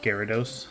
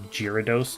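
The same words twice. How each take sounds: First: The name begins with a hard G sound. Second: The name begins with a soft J sound. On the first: The speaker calls it right. "not Gyarados" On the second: The speaker calls it wrong. "he also pronounces Gyarados"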